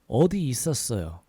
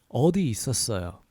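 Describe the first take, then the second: No difference in how they are said.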